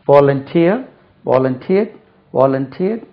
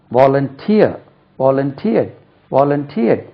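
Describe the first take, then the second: No difference in how they are said.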